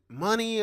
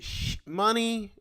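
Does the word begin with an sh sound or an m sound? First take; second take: m sound; sh sound. First: The word begins with an m sound. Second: The word begins with an sh sound. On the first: "Or is is the S H silent?" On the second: "is it sh- money?"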